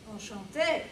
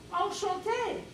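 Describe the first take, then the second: First: Said in the usual way. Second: Much higher, coy Enchanté; flirty enchanté. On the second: Retold or imitated. Greeting Maurice at the bar, much higher and coy. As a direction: lift it up high and coy.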